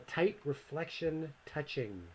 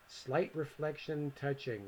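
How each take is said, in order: First: Says "tight reflection touching", the word "tight" clearly with a t and no s; slow, careful "tight" in place of "slight"; misread as tight. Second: "Slight" said with a clear s before the l; correcting to "Slight reflection touching", s sounded; corrected reading. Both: Real, not acted.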